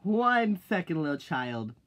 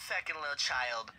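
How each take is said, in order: First: Loud retort. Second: Said in the usual way. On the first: Shown as a demonstration. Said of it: "loud retort, repeated later softer". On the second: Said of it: "calm repeat of the retort".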